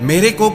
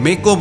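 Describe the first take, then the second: First: The first word is pronounced fully. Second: The first word is pronounced in a shortened form. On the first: The speaker calls it right. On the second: The speaker calls it wrong.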